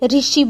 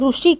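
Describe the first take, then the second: First: The first syllable is said like 'ri'. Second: The first syllable is said like 'ru'. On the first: "Hindi में ऋषि बोला जाता है" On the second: "Gujarati हम ऋषि कहते हैं"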